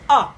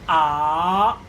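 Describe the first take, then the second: First: The pitch drops sharply from high to low. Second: The pitch rises from mid to high. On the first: "a sharp one, the falling tone" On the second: "The second one is raising"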